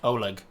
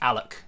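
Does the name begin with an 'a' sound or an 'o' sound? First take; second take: o; a. First: The name begins with a rounded 'o' vowel. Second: The name begins with an open 'a' vowel. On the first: The speaker calls it wrong. "which I would have thought was like Oleg" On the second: The speaker calls it right. "it's just Alec"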